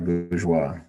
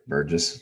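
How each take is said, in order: First: The name is said like French 'bourgeois'. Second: The name is said like English 'Burgess'. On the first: The speaker calls it right. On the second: The speaker calls it wrong.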